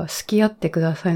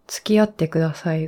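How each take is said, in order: First: 好き合って begins "suki", with s alone; su sound. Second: 付き合って begins "tsuki", with a ts; tsu sound. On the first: Speaker contrasting confusable phrases for listeners, su sound. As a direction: open 好き合って on "su", dropping the t. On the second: Speaker contrasting confusable phrases for listeners, tsu sound. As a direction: open 付き合って on a clear "tsu". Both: Shown as a demonstration. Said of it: "両方同じ音に聞こえる".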